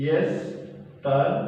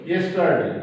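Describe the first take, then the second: First: Yesterday stretched out syllable by syllable; yesterday broken into slow, separate pieces; slow dictation. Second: Said in the usual way. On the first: Shown as a demonstration. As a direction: dictate yesterday very slowly, as if writing it. Dictating the answer while writing.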